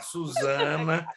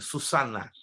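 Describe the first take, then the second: First: The middle consonant is a buzzing z sound. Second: The middle consonant is a hissing s sound. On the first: "a pronúncia é de Z" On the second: "No espanhol, sim, Susana, com S"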